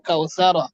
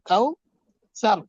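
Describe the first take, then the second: First: The word ends with an 'a' vowel after r. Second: The word ends on r with no vowel. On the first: The reading continues without stopping. "ওয়া যাবেন কাউ সারা" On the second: The reader stops at this word. "দম চললে সাকিন হয়ে যাবে কাউ সার"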